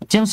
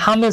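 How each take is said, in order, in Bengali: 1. নামটি J ধ্বনি দিয়ে শুরু হয়। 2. নামটি H ধ্বনি দিয়ে শুরু হয়। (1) "আপনারা একজন ফুটবল খেলোয়াড়ের নাম শুনেছেন" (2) "তারা উচ্চারণ করতেছে হামেস"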